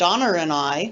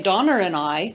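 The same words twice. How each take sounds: First: An r links Donna to and, New Zealand style. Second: An r links Donna to and, New Zealand style.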